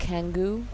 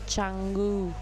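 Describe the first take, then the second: First: The name begins with a k sound. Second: The name begins with a ch sound. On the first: The speaker calls it wrong. "people call Canggu Kangu" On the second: The speaker calls it right. "the C is usually pronounced as ch"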